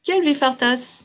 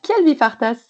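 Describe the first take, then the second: First: Kiel vi fartas repeated slowly and higher; careful pupil repeat of kiel vi fartas; repeating after teacher. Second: Kiel vi fartas, stress on kiel, falling end; Esperanto phrase. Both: Shown as a demonstration. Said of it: "répétez donc après moi".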